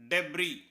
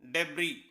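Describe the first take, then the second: Both takes have the same delivery.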